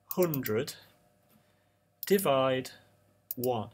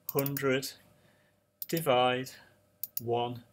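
No difference in how they are said.

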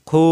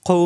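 First: খু with the u drawn out long; long, held খু showing the mistake; wrongly stretched vowel. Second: খু cut short, no drawn-out vowel; quick single-beat খু. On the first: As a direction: drag out the vowel of খু. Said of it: "এরকম টান দেওয়া যাবে না". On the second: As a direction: say খু promptly without stretching it. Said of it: "কোনো দেরি করা যাবে না". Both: Shown as a demonstration.

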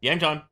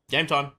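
Both takes have the same delivery.

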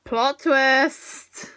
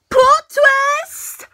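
First: Said in the usual way. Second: High, loud, drawn-out announcement; dramatic exclamation. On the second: Acted. Vlogger reacting to the episode's twist, dramatic exclamation. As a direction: belt it out as a big mock reveal.

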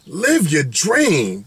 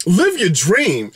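First: Slower emphatic. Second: Slow emphatic. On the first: Telling viewers to chase dreams, slow and solemn. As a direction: let live your dream sink in slowly. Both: Shown as a demonstration. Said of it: "At the end of the day".

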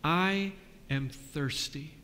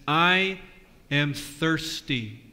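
First: Softer and slow, fading away; fading Jesus. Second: A hint of Jesus on the cross, slow and drawn out. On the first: Acted. Pastor voicing Jesus a second time, softer and fading. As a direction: let it fade out like the last of his strength. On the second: Pastor voicing Jesus on the cross to the kids, slow. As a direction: draw the words out like a dying man. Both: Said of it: "today he says".

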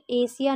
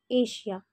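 First: एशिया said with a plain s, "esiya"; the mistaken एशिया with s instead of sh; wrong pronunciation. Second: एशिया with sh, "eshiya"; correct pronunciation. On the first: Teacher showing students the common mistake, deliberate s. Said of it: "नहीं पढ़ेंगे". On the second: Teacher contrasting right and wrong sounds for students, careful sh. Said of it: "correct pronunciation होगा". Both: Shown as a demonstration.

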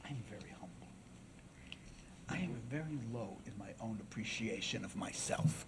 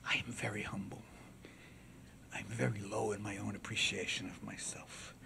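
First: Hushed, low courtroom humility; soft-spoken orator. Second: Humble oration, low and soft but audible; soft-spoken orator. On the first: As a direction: speak so softly they strain to hear. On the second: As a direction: address the jury softly and humbly. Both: Acted. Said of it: "he talked very softly".

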